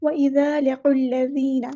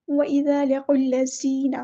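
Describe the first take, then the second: First: وَإِذَا with ذ said soft and gentle; the correct soft ذ; right take: ذ soft in وَإِذَا; soft dhal, right. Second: وَإِذَا with ذ said harshly, the wrong way; wrong take: ذ hard in وَإِذَا; hard dhal, wrong. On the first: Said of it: "ایسے نرمی سے پڑھنا ہے". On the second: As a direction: demonstrate the harsh ذ to avoid. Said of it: "ایسے نہیں پڑھنا، سختی سے زال کو نہیں پڑھنا". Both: Shown as a demonstration.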